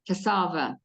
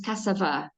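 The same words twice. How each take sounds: First: Cassava with stress on the second syllable, kuh-SAH-vuh; corrected pronunciation. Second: Cassava with stress on the first syllable, CASS-uh-vuh; first pronunciation. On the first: Host corrects the staple food's name, cassava stressed on a long middle syllable. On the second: Host tries naming the African staple food, cassava stressed on its first syllable. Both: Shown as a demonstration. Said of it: "yes, cassava".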